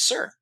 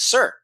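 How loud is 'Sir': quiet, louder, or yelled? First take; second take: quiet; louder. First: It is said quietly. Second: It is said somewhat louder.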